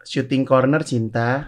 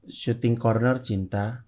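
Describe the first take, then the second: First: Slow, soft Syuting Corner Cinta, rising on Corner; reread in a new tone. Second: Slow, rising read of Syuting Corner Cinta as a question; flat questioning read. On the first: Rereading the chat on request, slow and softer. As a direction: say Syuting Corner Cinta slowly, as a calm statement. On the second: Rereading the chat message aloud, slow and rising. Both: Shown as a demonstration. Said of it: "coba dengan nada seperti itu lu baca ulang".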